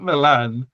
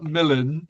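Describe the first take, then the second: First: Milan with the stress on LAN; stress on second syllable. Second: Milan as MIL-un; stress on first syllable. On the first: Guesser ruling out the city's pronunciation, Milan stressed on the end. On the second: Guesser ruling out a second option, Milan stressed on MIL. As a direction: hit the start of Milan, short i, weak ending. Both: Shown as a demonstration. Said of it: "the stress isn't where I".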